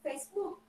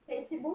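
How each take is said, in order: First: It is said with an English accent. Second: It is said with a Brazilian Portuguese accent. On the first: This is the original form. "Mas a pronúncia seria" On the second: This is the local adapted form. "A gente abrasileirou o inglês"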